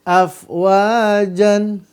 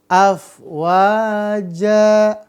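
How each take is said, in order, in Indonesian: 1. Kata ini berakhir dengan bunyi n. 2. Kata ini berakhir dengan vokal a panjang. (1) "maka jangan dibaca afwajan, nggak boleh" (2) "tanwinnya dihilangkan jadi bunyi panjang dua harokat"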